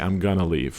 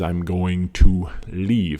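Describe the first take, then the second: First: Going to is reduced to gonna. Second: Going to is said in full. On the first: The speaker calls it right. "We would say, I'm gonna leave" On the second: The speaker calls it wrong. "nobody says, I'm going to leave"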